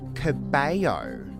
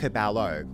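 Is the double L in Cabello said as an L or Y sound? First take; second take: Y sound; L sound. First: The double L sounds like a Y. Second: The double L sounds like an L. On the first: The speaker calls it right. "The correct pronunciation is Camilla Cabello" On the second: The speaker calls it wrong. "It's not Cabello. Yeah. There's no L"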